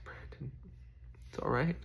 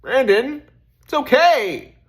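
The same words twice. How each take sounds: First: Softly whispered reassurance to himself; a hushed, gentle self-reassurance; whispered comfort. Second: High, loud call of comfort; loud, high insistent self-reassurance. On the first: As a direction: breathe it quietly to yourself. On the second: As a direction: call your own name out firmly. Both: Retold or imitated. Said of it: "Just like".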